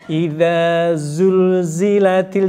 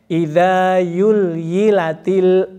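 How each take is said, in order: First: The word is said with a z sound. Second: The word is said with a y sound. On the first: The speaker calls it right. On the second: The speaker calls it wrong.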